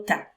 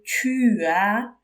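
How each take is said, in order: First: The words are shortened into one syllable. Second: Both words are said in full, two syllables. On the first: "on raccourcit, on veut parler plus vite" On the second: "Au lieu de tu as"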